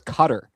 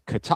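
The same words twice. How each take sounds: First: The stress is on the first syllable. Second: The stress is on the second syllable.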